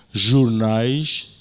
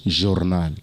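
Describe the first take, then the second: First: "jornais" with the plural ending -ais, European style; European pronunciation. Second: "jornal" without the plural, as said in Mozambique; Mozambican pronunciation. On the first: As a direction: say "jornais" the way Portugal does. (pronúncia europeia de "jornais") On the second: (pronúncia moçambicana de "jornal") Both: Shown as a demonstration. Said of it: "aqui dizemos jornal".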